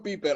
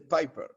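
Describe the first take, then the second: First: The name is pronounced with Spanish sounds. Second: The name is pronounced with English sounds. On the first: The speaker calls it wrong. "bien en español básico" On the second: The speaker calls it right. "se dice Piper"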